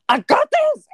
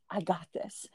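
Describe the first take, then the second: First: High, loud burst of forced confidence; frantic self-assurance. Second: Low, hushed pep talk to yourself; quiet self-assurance. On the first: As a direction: blurt it way up high, insisting you cope. Escalating self-talk turns frantic. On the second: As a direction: say it softly, pitched down, barely convincing yourself. Escalating self-talk, before the outburst. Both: Acted.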